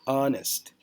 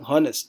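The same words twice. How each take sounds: First: The word begins with a vowel, h silent. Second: The word begins with an audible h sound. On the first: The speaker calls it right. "tapi honest" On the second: The speaker calls it wrong. "kita tidak bilang honest"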